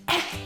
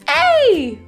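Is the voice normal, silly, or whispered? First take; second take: whispered; silly. First: It is said in a soft whisper. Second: It is said in a playful, silly put-on voice. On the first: "let's do it in a whisper voice" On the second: "And in a silly voice"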